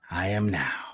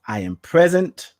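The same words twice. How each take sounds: First: Breathy whispered affirmation; soft whispered I am now. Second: Said in the usual way. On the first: Shown as a demonstration. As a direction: hush it down to a whisper.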